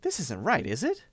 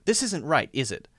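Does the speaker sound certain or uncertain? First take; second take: uncertain; certain. First: The tag question sounds doubtful and confused. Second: The tag question sounds sure and confirming. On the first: The speaker genuinely does not know and is asking. "I'm really wondering what's going on. I'm confused" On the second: The speaker expects agreement with something already believed. "I'm confirming something that I'm almost certain is true"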